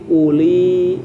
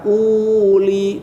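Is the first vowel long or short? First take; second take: short; long. First: The first vowel is said short. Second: The first vowel is drawn out long. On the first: The speaker calls it right. "pendek u-nya" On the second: The speaker calls it wrong. "bukan uli, tidak begitu"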